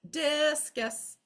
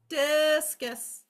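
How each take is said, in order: Both takes have the same delivery.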